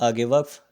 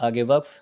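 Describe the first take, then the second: No difference in how they are said.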